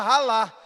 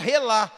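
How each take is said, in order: First: The first vowel is an a sound. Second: The first vowel is an e sound. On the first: This is how people from Rio say it. The speaker calls it wrong. "mas o carioca fala ralar" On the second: This is how people across Brazil say it. The speaker calls it right. "Todos os povos do Brasil falam relar"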